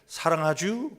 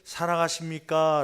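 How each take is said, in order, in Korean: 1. 충청도 사투리로 짧게 말했습니다. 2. 표준어로 평범하게 말했습니다. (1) "충청도 사투리가 유행해갖고" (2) "이렇게 평범하게"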